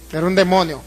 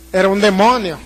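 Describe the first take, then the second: No difference in how they are said.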